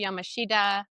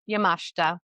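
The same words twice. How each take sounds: First: The name is said with an American pronunciation. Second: The name is said with a Japanese pronunciation. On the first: The speaker calls it wrong. "That's what my little American brain thinks it should be pronounced like" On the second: The speaker calls it right. "I listened to how she pronounced it"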